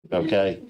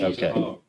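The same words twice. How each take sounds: First: Said in the usual way. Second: Whispered okay. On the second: Real, not acted.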